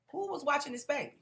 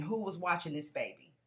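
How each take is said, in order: First: Mock scream. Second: Said in the usual way. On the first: Paramedic demanding who watched the baby, higher mock yell. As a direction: repeat it higher, pitched up. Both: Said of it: "ambulance people kept screaming".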